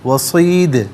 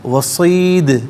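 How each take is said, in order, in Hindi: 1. अंतिम d गूँज के साथ लौटकर उछलता है। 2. अंतिम d गूँज के साथ लौटकर उछलता है।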